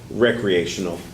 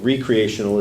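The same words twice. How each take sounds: First: The first syllable sounds like 'rek'. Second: The first syllable sounds like 'ree'. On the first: Something is used for leisure. "is what marijuana is used for" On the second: Something is created over again. "is when God makes the planet over"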